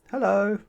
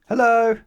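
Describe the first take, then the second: First: It is said in a small, quiet voice. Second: It is shouted as loudly as possible.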